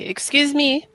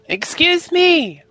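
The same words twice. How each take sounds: First: It is said at normal, softer volume. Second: It is said louder.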